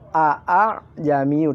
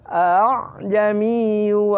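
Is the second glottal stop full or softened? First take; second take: full; softened. First: The second glottal stop is pronounced fully. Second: The second glottal stop is softened and blurred. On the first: "padahal tertulis a a jamiyu" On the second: "tapi disamarkan"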